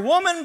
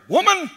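First: The word is said softly and gently. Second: The word is said sharply and harshly. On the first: The speaker calls it right. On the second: The speaker calls it wrong.

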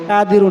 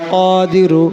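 First: It begins with a plain k and short a. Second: It begins with a deep q and long a. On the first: The speaker calls it wrong. "কাদিরু না" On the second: The speaker calls it right. "কফ আলিফ জবর ক"

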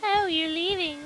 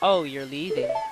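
First: It is said in a high girlish voice. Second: It is said in his natural voice.

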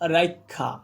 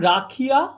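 First: The i sound comes before the kh. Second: The i sound comes after the kh. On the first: "রস্বইটা দেখো আগে চলে এসেছে" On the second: "ক্ষয়ের পরে রস্বই কারটা উচ্চারিত হচ্ছে"

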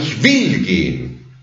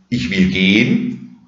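First: The word 'will' carries strong emphasis. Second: The word 'will' carries no special emphasis. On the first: It insists on the wanting itself. "kann man ja nicht auf das Wollen den Akzent legen" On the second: It simply states a future action. "das ist gleichbedeutend mit ich werde gehen"

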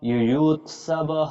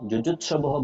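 First: The word begins with a y sound. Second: The word begins with a j sound. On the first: The speaker calls it right. "ইউয়ুৎসবহ ইউয়ুৎসবহ" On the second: The speaker calls it wrong. "যুযুৎসবহ বলবো না কিন্তু"

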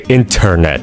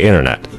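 First: The T sounds are pronounced crisply and fully. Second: The T sounds are softened or dropped. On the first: The speaker calls it wrong. "stop overpronouncing your T's" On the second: The speaker calls it right. "You can just say internet"

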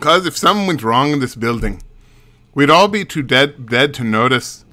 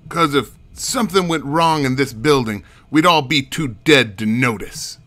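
First: It is said in a Mexican accent. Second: It is said in a New York accent.

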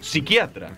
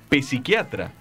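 First: The word starts without any P sound. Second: The word starts with an audible P sound. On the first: The speaker calls it right. "sino psiquiatra, porque la P no se pronuncia" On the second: The speaker calls it wrong. "no se dice psiquiatra"

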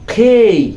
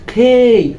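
No difference in how they are said.

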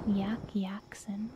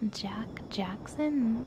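First: The first name begins with a Y sound. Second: The first name begins with a J sound.

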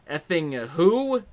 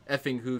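First: It is said with strong, exasperated emotion. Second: It is said flatly, without much emotion.

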